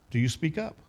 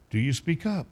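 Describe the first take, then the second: No difference in how they are said.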